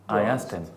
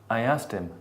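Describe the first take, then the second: The two takes are said the same way.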